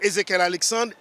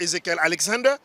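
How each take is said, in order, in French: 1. Le nom de famille se termine par un son 're'. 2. Le nom de famille se termine par un son 'er'. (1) "yo dit Ezekiel Alexandre" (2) "par exemple Ezekiel Alexander"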